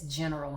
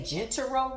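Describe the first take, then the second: First: The word has no extra 't' sound inside. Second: The word has an extra 't' sound inside. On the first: The speaker calls it right. "It's general, honey" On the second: The speaker calls it wrong. "I love when people mispronounce that word"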